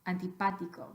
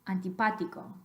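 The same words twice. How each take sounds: Both takes have the same delivery.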